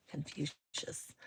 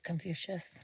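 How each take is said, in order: First: A slow, lower, solemn lightly put-on Confucius; mock wise sage. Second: Said in the usual way. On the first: Shown as a demonstration. Streamer mocking a viewer's name, slow lowered sage intoning. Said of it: "It's like going back to my philosophy class". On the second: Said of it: "Where are you shouting out from".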